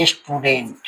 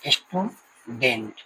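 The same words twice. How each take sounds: First: Said in the usual way. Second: स्टूडेंट drawn out slowly, syllable by syllable; slow syllable demo. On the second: Shown as a demonstration. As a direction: say स्टूडेंट very slowly and softly, splitting its two syllables. (स्टूडेंट को धीरे-धीरे दो खंडों में बोलें) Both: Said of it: "जैसे".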